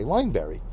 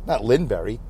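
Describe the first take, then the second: First: Lineberry with a long "line" sound, LINE-berry; correct pronunciation. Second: Linberry with a short "lin", LIN-berry; wrong pronunciation. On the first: Vlogger correcting a friend's surname, long "line" in Lineberry. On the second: Vlogger showing the wrong way to say the name, short "lin" in Linberry. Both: Shown as a demonstration.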